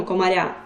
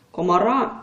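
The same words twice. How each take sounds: First: "комаря" with a softened "р"; wrong soft r. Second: "Комара" with a hard "р"; firm unsoftened "ра" ending on "Комара". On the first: Teacher shows the mistaken form "комаря", soft r. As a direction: palatal "ря" ending on "комаря". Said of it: "Ми ж не кажемо". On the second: Teacher shows the correct form "Комара", hard r. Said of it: "твердо". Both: Shown as a demonstration.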